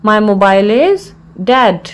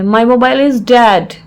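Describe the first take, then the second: First: Measured, with a clear mid-phrase pause; broken into parts. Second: Said in the usual way. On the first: Shown as a demonstration. Teacher repeats the phrase for learners, in separated parts.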